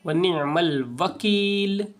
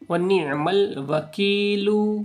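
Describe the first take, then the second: First: The last word ends on the bare consonant. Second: The last word ends with a short 'u' vowel. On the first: The speaker calls it right. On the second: The speaker calls it wrong.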